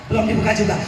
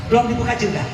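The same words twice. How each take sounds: No difference in how they are said.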